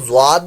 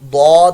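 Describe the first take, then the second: First: It starts with a z-like sound. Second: It starts with a d-like sound. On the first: The speaker calls it wrong. "लोग इसको ज्वाद भी पढ़ते हैं, ज्वाद नहीं पढ़ना चाहिए" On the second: The speaker calls it right. "इसको दौद ही हम इसको आ, पढ़ेंगे"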